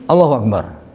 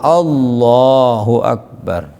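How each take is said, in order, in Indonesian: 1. Frasa itu diucapkan sangat pendek dan terpotong. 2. Frasa itu diucapkan dengan panjang sedang. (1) "Atau malah pendek" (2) "Ya cukup benar"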